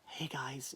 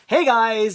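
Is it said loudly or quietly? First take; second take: quietly; loudly. First: It is said quietly and flatly. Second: It is said loudly and excitedly.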